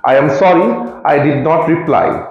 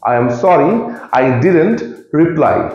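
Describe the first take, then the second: First: The words 'did not' are said in full. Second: The words 'did not' are contracted to 'didn't'. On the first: "ডিড নট" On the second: "ডিড নটের জায়গায় ডিডেন্ট বললে ... শুনতেও smart লাগে"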